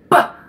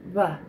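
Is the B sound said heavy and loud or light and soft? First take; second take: heavy; light. First: The sound is heavy and loud. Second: The sound is light and soft. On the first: The speaker calls it wrong. "Way too heavy and loud" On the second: The speaker calls it right. "says it light, barely puts her lips together"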